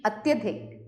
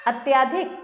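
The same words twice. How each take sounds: First: Said in the usual way. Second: अत्याधिक with long aa after ty; अत्याधिक, stretched tyaa. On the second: Shown as a demonstration. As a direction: lengthen the vowel as अत्याधिक. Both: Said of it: "नहीं".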